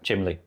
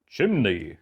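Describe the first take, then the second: First: The middle consonant is an L sound. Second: The middle consonant is an N sound. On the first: The speaker calls it wrong. "I said chimley" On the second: The speaker calls it right. "to say it right, I have to go"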